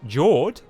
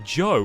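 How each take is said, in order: First: The name ends with an r and d sound. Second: The name ends on a plain long vowel. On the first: The players guess at the name. The speaker calls it wrong. "people would be calling him Jord" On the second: A character reveals the real name. The speaker calls it right. "and this must be Joe"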